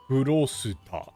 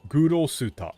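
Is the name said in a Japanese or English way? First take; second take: Japanese; Japanese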